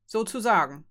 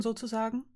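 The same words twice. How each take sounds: First: "Sozusagen" as a falling confirmation; "Sozusagen" stated, no question in it; wry confirming SOZUSAGEN. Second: "sozusagen?" lifted into a rising question; tentative checking "sozusagen?", ending high. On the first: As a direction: confirm "Sozusagen" with a joyless half-smile, dropping at the end. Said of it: "bestätigte Jurin halb lächelnd, kein glückliches Lächeln". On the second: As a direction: ask "sozusagen?" with the voice going up at the end. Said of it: "fragte Fee". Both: A narrator's reading.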